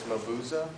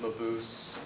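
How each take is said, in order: First: The name is said with German pronunciation. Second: The name is said with common anglicized pronunciation. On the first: "the correct German version is" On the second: "although everybody pronounces it"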